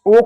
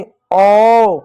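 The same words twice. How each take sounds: First: Said in the usual way. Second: ओ drawn out very slowly as a sound, not the letter name; stretched vowel sound. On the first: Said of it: "ओ नहीं, ओ पढ़ा". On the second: Shown as a demonstration. Teacher showing kids the sound of ओ, slowly drawn out. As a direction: hold the ओ long and open, very slowly. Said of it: "इस ओ को ओ नहीं".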